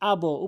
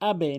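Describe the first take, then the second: First: The b's echo is pushed upward, toward an o. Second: The b's echo drops downward, toward an e. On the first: The speaker calls it wrong. "উপরের দিকে নয়" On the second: The speaker calls it right. "আবে নিচের দিকে"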